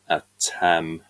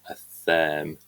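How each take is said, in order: First: The middle sound is a plain t. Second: The middle sound is a th sound. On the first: This is how it was said in Old English. "because the T and the H would have been pronounced separately" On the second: This is how it is said in modern English. "because we make the T H sound in modern English"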